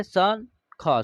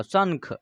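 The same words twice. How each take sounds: First: शंख drawn out very slowly; very slow demo. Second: Said in the usual way. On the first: Shown as a demonstration. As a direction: stretch शंख for pupils. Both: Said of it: "स के ऊपर एक बिंदी है".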